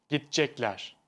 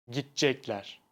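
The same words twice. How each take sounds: No difference in how they are said.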